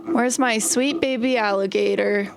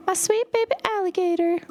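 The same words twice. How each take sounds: First: Said in the usual way. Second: Put-on high cooing baby talk to a pet; cat voice. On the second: Shown as a demonstration. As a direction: coo at her like a kitten. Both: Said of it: "in my cat voice".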